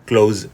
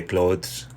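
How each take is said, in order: First: "clothes" said as "cloze"; "clothes" with a plain z ending, no th; TH left silent. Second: "clothes" with the th sounded before the s; "clothes" said with an audible th; TH pronounced. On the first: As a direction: drop the th in "clothes" and end on z. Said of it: "is better". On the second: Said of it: "it's optional". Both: Shown as a demonstration.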